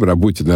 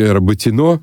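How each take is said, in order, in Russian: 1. Ударение падает на слог перед последним. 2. Ударение падает на последний слог. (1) "мы все говорим «Работино»" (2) "они там на месте говорили Работино, потому что Бородино"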